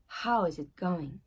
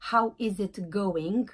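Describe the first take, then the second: First: The T in "it" is nearly silent. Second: The T in "it" is clearly pronounced. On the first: The speaker calls it right. "le T, c'est un peu euh, silencieux" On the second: The speaker calls it wrong. "C'est pas how is it going?"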